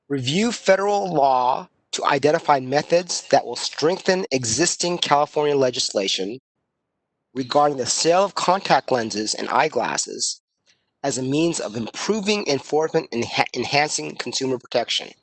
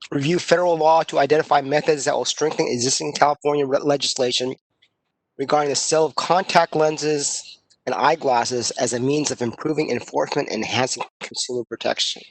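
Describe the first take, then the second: First: It is read much more slowly. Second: It is read at normal speed.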